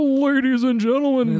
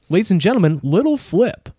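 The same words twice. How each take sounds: First: High showman announcement; [name] impression. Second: [name] impression. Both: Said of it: "[name] impression".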